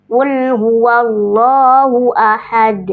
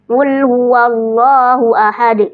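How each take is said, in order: First: "Qul huwallahu ahad" slow, bouncing the final "d" of "ahad"; qalqalah demo. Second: "Qul huwallahu ahad" slow, with the final "d" overdone as "ahade"; wrong qalqalah. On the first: Teacher demonstrating qalqalah kubro, slowly. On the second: Teacher showing how it should not be read, slowly. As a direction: recite "Qul huwallahu ahad" ending with an added "e". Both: Shown as a demonstration. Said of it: "Tidak dibaca".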